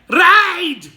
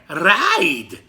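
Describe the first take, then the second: First: It is said in an angry, frustrated way. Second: It is said in a calm, plain way.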